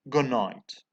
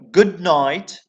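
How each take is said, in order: First: The d of good becomes a nasal. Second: The d of good is a plosive stop.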